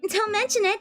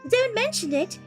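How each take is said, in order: First: It is said in the speaker's plain accent. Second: It is said in a put-on British accent.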